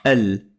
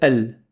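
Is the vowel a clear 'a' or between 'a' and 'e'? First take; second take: between a-e; between a-e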